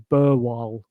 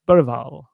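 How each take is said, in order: First: The G sound is dropped from the surname. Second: The G sound is heard in the surname. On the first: This is the version the player gave a year later. "I don't think he said the G" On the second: This is the version the player gave last year. "the correct pronunciation of his name was Lucas Berval, like that"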